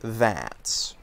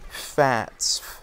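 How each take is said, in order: First: The word begins with a th sound. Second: The word begins with an f sound. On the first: "take the word that's" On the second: "He would say fats"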